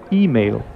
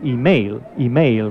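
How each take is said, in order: First: The word is said with the English pronunciation. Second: The word is said with a Spanish-style pronunciation. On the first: The speaker calls it right. "But in English, it's email" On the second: The speaker calls it wrong. "my Spanish speakers usually say email, right?"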